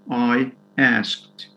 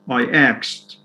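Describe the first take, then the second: First: The verb is said like 'asked', with s before k. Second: The verb is said like 'axed', with k before s. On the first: This is the standard form. "instead of" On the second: This is how some dialect speakers say it. "it's very common to hear people say"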